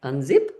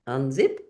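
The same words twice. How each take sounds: The two takes are said the same way.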